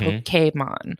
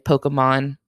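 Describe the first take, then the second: First: The word is said the Japanese way. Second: The word is said the usual English way. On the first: It follows the original source language. "if you wanted to be like super authentic about it" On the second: It is the everyday habit of most speakers. "most English speakers just say Pokemon"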